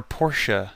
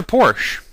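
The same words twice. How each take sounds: First: Porsche as two syllables, "POR-shuh". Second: Porsche as one syllable, "porsh". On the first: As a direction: sound the final e in Porsche as "uh". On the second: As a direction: say Porsche with a silent final e. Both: Shown as a demonstration. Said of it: "depending on how you pronounce it".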